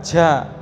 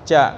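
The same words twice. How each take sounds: First: The consonant is released with a puff of air. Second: The consonant is released without any puff of air. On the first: The speaker calls it wrong. "mengucap ja itu keluar udara" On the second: The speaker calls it right. "Jadi nggak nggak ada udara keluar"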